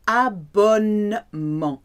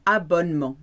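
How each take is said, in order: First: Abonnement said slowly, syllable by syllable; slow careful abonnement. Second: Said in the usual way. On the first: Shown as a demonstration. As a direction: stretch out abonnement for learners.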